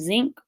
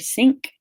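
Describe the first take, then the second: First: The word begins with a z sound. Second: The word begins with an s sound. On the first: "replaced with a more familiar fricative such as s or z" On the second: "replaced with a more familiar fricative such as s or z"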